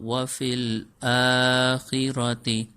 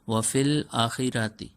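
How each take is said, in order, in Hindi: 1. शुरू का स्वर लंबा है; 'ra' छोटा है। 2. शुरू का स्वर छोटा है; 'ra' लंबा है। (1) "सही तरीके से पढ़ेंगे तो ये होगा" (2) "आ को लंबा नहीं करते और पढ़ते हैं ... रा को लंबा कर देते हैं"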